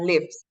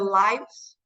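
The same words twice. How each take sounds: First: The vowel sounds like the one in 'give'. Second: The vowel sounds like the one in 'life'. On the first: It is the verb meaning to reside. The speaker calls it wrong. "bukan lives" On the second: It is the plural of the noun life. The speaker calls it right. "Kalau hidupnya banyak orang, ya kita tambahin S, itu kita bacanya"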